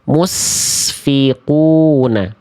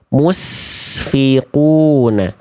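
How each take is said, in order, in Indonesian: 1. Konsonan setelah 'mu' adalah s desis. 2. Konsonan setelah 'mu' adalah s desis.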